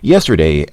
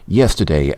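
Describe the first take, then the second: First: It is said in the speaker's normal accent. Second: It is said in a put-on British accent. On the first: "switch to my normal voice" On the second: "the British accent is getting a bit annoying for me now"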